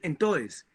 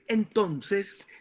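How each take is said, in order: First: It is said in an Antioquian regional accent. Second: It is said in a neutral Spanish accent. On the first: "en la región de Antioquia, dicen entonces" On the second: "en vez de decir entonces"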